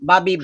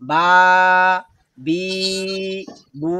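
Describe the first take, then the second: First: The vowels are short and quick. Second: The vowels are drawn out and slow. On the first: The speaker calls it right. "Short sound" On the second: The speaker calls it wrong. "এখন আমি যদি উচ্চারণ করি বা, বি, বু হয়েছে বলেন তো দেখি? ... না"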